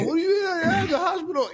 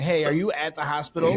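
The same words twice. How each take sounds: First: Very high, squealed panicky echo; hammed-up high-pitched alarm; mock freak-out. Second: Said in the usual way. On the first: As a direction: squeal it like someone comically overreacting. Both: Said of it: "I don't wanna freak anybody out".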